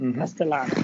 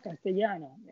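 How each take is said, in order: First: The double L sounds like a plain L. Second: The double L sounds like a Y. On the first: The speaker calls it wrong. "La dos L la pronuncia como una sola L" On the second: The speaker calls it right. "yo siempre les corregía"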